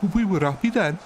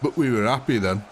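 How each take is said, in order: First: High-pitched comic Brummie; exaggerated higher Birmingham voice; Birmingham accent. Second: Level, broad Yorkshire reminiscing; put-on nostalgic Yorkshire voice; Yorkshire accent. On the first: Shown as a demonstration. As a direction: put on a sing-song Birmingham accent, pitched up. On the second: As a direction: round off the tale in broad Yorkshire. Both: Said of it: "you could say that in a Birmingham accent".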